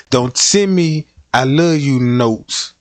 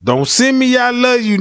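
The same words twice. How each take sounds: First: Said in the usual way. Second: "Don't send me" pushed higher and louder; louder and higher second time; emphatic repeat. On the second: Shown as a demonstration. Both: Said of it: "repeats it louder".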